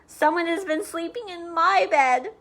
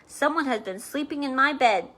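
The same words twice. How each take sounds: First: It is said in a wee small voice. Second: It is said in a great big voice.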